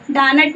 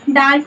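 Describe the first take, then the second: First: "डानट" with the n fully sounded as its own sound; wrong full n. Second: "डांट" with only a faint nasal hum for the nun; light nasal n. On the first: Teacher shows students the wrong reading, "डानट" with a full n. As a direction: say "डानट", giving the nun a full, separate n. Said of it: "डानट नहीं पढ़ेंगे". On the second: Teacher shows students the right reading, "डांट" with a faint nasal n. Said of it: "नून की हल्की सी आवाज़ आएगी". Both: Shown as a demonstration.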